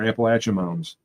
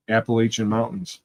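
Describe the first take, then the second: First: "Appalachian" said app-uh-LATCH-un, falling at the end; Appalachian with short A. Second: "Appalachian" said app-uh-LAY-shun, rising at the end; Appalachian with long A. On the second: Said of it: "or Appalachian Mountains". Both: Shown as a demonstration.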